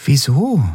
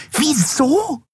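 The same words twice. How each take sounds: First: Said in the usual way. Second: Very high, incredulous screech; shrill repeat. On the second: A narrator's reading. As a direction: echo it back in shrill disbelief. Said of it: "wiederholte die Yadi schrill". (schrill und ungläubig wiederholt)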